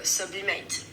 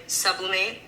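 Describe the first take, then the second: First: "sublimate" with the weight on mate; French stress. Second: Said in the usual way. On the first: Shown as a demonstration. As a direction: lean on the end of "sublimate". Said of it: "in French, it's more like". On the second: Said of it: "In English, you would say".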